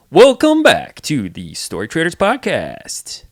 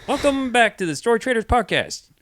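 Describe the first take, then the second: First: Big booming announcer, slow and loud. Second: High, loud announcer intro. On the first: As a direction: open the show like a fighting game announcer. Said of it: "an announcer voice?". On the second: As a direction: open the show like an announcer. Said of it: "Take it away". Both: Shown as a demonstration.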